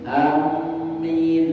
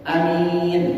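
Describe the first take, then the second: First: The m is held long and doubled. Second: The m is short and single. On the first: "mimnya ditasydidkan" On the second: "Dua-duanya ini mah masyhur"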